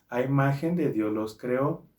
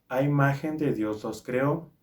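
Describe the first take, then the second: Both takes have the same delivery.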